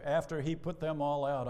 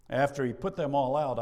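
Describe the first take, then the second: First: Said in the usual way. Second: Emphatic. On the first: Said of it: "I love it". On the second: Shown as a demonstration. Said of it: "I love that".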